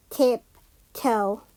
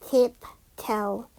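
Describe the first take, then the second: No difference in how they are said.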